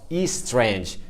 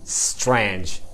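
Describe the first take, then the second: First: The word begins with an added vowel sound. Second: The word begins directly with an s sound. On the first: The speaker calls it wrong. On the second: The speaker calls it right. "Tem que começar com S"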